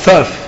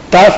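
First: The first consonant is a soft fricative. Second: The first consonant is a hard stop. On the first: "יש תף לא דגושה" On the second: "יש תף דגושה"

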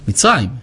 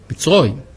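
First: The last vowel sounds like an open 'a'. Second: The last vowel sounds like a rounded 'o'. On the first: "יכולו לקרוא בפתח" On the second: "זה האשכנזים מבטאים אותו או"

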